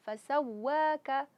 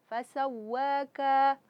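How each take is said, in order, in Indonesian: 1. Semua vokal dibaca pendek dan rata. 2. Vokal dipanjangkan panjang.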